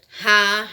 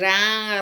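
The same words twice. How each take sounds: First: The r sound is strong. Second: The r sound is weak. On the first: It is spelled with two r's. "dois R's" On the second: It is spelled with one r. "é um R, porque o som é mais fraco"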